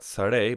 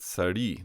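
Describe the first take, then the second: First: Sare ending in an e sound, the plain form; wrong form shown. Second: Sari ending in an i sound, the inflected form; correct form shown. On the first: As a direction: say sare with a final eh vowel, as the form not to use. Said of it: "not sare". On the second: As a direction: say sari with a final ee vowel, as the right choice. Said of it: "but sari". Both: Shown as a demonstration.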